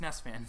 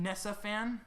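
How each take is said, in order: First: "Ness fan" with Ness as one syllable; corrected name. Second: Nessa with an extra "uh" on the end; misread name. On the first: Host correcting a subscriber's name, Ness in one syllable. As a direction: say Ness without an "uh" ending. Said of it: "Or, sorry, not Nessa fan". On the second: Host misreading a subscriber's name, Nessa in two syllables. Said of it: "not Nessa fan, just Ness fan". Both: Real, not acted.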